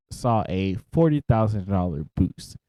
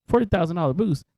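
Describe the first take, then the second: First: Said in the usual way. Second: Higher, disbelieving question; can't believe the number; surprised. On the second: Real, not acted. Repeats the figure in disbelief.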